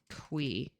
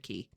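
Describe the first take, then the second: First: The name is said like 'kwee'. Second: The name is said like 'key'. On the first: The speaker calls it right. "It's actually Quee" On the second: The speaker calls it wrong. "It's not Mister Key"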